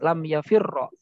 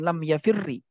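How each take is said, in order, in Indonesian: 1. Kata ini berakhir dengan vokal a. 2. Kata ini berakhir dengan vokal i. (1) "Jadi harus difatahkan" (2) "Atau dikasrohkan"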